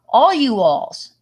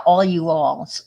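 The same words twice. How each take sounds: First: "all you alls" said slowly, "all" stressed. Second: Said in the usual way. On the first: Shown as a demonstration. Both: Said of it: "is plural".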